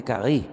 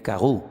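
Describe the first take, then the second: First: "carré" ending in a clear e, stress on rré; Hebrew carré. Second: "carrú" ending in a clear u, stress on rú; Hebrew carrú. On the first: Preacher reads the changed Hebrew word: "carré" ending in stressed e. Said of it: "En vez de carrú". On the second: Preacher reads the original Hebrew word: "carrú" ending in stressed u. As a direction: say "carrú" with a final stressed u, ka-RRÚ. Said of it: "pone carré". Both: Shown as a demonstration.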